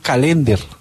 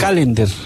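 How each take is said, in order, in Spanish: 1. El acento recae en una sílaba posterior. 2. El acento recae en la primera sílaba.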